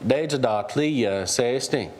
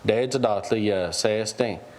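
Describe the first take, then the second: First: The pitch bounces up in the middle. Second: The pitch stays flat and monotone throughout. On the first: People struggle to hold on to each other. "with kind of a bounce in the middle" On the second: Someone is telling people to go wrestle or fight. "if you say it kind of monotone"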